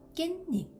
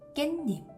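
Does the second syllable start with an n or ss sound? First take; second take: n; n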